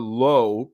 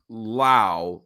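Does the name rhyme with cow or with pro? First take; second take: pro; cow. First: The vowel sounds like the one in pro. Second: The vowel sounds like the one in cow. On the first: "pronounced like pro" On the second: "like in cow"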